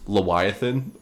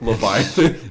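First: The middle consonant is a w sound. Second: The middle consonant is a v sound. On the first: "depending on if it's the W or the V" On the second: "depending on if it's the W or the V"

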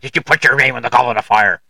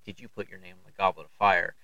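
First: The question is asked angrily and forcefully. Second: The question is asked calmly.

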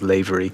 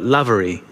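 First: The first syllable does not sound like 'lav'. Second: The first syllable sounds like 'lav'. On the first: The speaker calls it wrong. "The most common mispronunciation is Lavery" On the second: The speaker calls it right. "But Lavery, like Lav"

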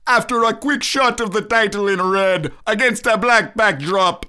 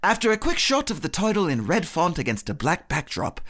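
First: It is said as Sebastian the crab. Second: It is said in an English accent.

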